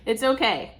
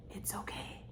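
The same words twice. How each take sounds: First: Said in the usual way. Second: Soft whisper of comfort; whispered reassurance. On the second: Acted. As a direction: breathe it like a secret. Reassuring girl, then laughs.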